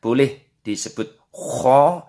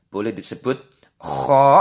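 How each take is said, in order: First: Kho with a light h sound; first way to say kho. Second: "kho" with a rough throat kh rasp; second way to say kho. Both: Shown as a demonstration. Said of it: "Jadi namanya ada dua penyebutannya".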